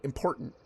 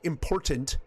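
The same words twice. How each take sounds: First: The middle T sound is dropped. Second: The middle T sound is clearly pronounced. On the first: "That doesn't sound like there's a T there" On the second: "I don't say important"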